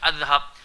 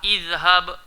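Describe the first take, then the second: First: The word begins with an 'a' vowel. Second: The word begins with an 'i' vowel. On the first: The speaker calls it wrong. "Dia takkan boleh baca azhab" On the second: The speaker calls it right.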